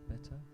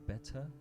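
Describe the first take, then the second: First: The word is pronounced very crisply and carefully. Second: The same.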